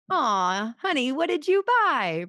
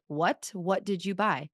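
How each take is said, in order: First: High, sugary honey what did you buy; sweet understanding reply. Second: Blunt, flat what did you buy; incredulous husband. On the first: Husband answering a big Costco spend, sweetly and high. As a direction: coo it like a loving husband, pitched up. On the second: Husband reacting to a thousand-dollar Costco bill, incredulous. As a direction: ask it like a stunned, unamused husband. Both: Shown as a demonstration. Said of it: "Do you see the difference?".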